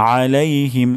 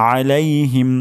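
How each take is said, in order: No difference in how they are said.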